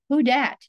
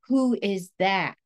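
First: It is said in a casual dialect form. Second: It is said in full standard English form. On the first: The speaker may be judged unprofessional. "some dialects that are considered to be lower status" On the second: The speaker may be judged professional. "that would be considered, quote, standard English"

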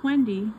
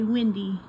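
First: The first vowel is as in bed. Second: The name sounds like the weather word windy. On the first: It is the speaker's own name. The speaker calls it right. "no, it's Wendy" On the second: It names a weather condition. The speaker calls it wrong. "you'd be surprised how many people say Wendy"

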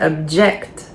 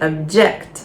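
The two takes are said the same way.

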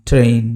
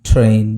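No difference in how they are said.

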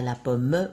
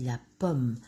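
First: A final E vowel is sounded. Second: The final E vowel is silent. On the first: The speaker calls it wrong. "On ne dit pas la pomme" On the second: The speaker calls it right. "on dit la pomme"

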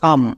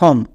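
First: The vowel is an unrounded uh sound. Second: The vowel is a rounded o sound. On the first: The speaker calls it right. "এই সাইট ওয়ার্ডসের উচ্চারণটা হবে সাম" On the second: The speaker calls it wrong. "কিন্তু আমরা সম উচ্চারণ করি না, এখানেই ভুল করি"

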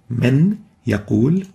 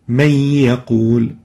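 First: The n is pronounced clearly before the y. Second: The n disappears, merged into a doubled y. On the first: "to pronounce them independently" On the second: "If we take the idgham, it will sounds like may ya"

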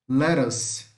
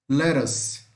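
Both takes have the same delivery.

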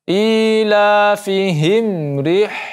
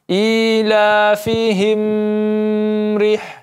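First: The m is clear with no nasal hum. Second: The m carries a nasal hum into rih. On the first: The speaker calls it right. "tanpa adanya dengung" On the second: The speaker calls it wrong. "tidak dibaca"

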